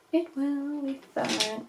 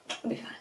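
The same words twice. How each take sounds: First: Slow, stretched self-reassurance; drawn-out reassurance. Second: Softer, offhand aside; quick soft reassurance. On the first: Vlogger reassuring herself about the crease, drawn out. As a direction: draw out every word slowly. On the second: Vlogger shrugging off an uneven crease, softly. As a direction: toss it off softly. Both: Real, not acted.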